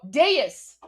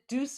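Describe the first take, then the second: First: The word is said as two syllables. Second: The word is said as one syllable. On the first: The speaker calls it right. "There we go" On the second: The speaker calls it wrong. "I'm gonna mispronounce it"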